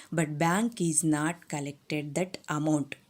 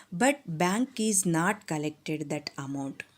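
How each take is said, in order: Both takes have the same delivery.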